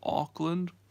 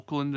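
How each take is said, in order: First: It is said in the speaker's own accent. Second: It is said the way Americans say it.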